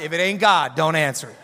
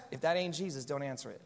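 First: Louder, punchy line with a laugh; saying it right. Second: Low, soft playful aside; church quip. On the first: Pastor redoes the phone quip properly, louder and laughing. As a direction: land the quip properly this time. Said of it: "so I can say that line right". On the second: Pastor quips to a ringing phone in church, low and playful. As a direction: say it like a knowing pastor's joke. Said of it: "I always wanted to say that". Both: Pretend.

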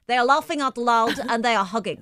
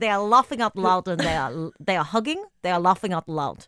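First: Bad Russian accent; heavy hammed-up Russian accent. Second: Terrible Russian accent. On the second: Shown as a demonstration. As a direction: repeat it in a bad Russian accent. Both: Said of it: "your terrible Russian accent".

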